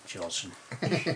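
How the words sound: The name is pronounced the Glasgow Scottish way. "the Coatbridge, Glasgow version would be"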